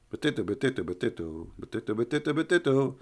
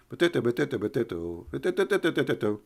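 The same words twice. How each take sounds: The two takes are said the same way.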